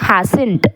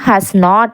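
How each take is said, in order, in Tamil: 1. இது ஒரு குறுகிய சுருங்கிய சொல்லாகச் சொல்லப்படுகிறது. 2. இது இரண்டு தனித்தனி முழுச் சொற்களாகச் சொல்லப்படுகிறது.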